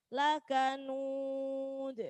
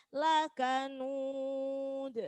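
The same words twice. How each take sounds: The two takes are said the same way.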